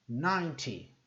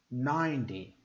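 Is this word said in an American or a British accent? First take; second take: British; American. First: The t is crisp and clearly pronounced. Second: The t sounds like a d. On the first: "Se eu fosse fazer mais britânico, eu faria assim" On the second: "esses são os números com a pronúncia mais americana"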